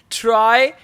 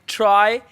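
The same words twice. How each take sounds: The two takes are said the same way.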